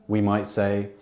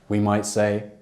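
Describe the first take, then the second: No difference in how they are said.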